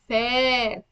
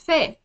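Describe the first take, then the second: First: The vowel is long, held two counts. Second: The vowel is short, held one count. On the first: "I say the sound for for two counts, not only one count" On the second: "fa with fatha"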